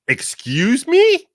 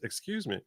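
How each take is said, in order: First: It sounds indignant and challenging. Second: It sounds polite and apologetic.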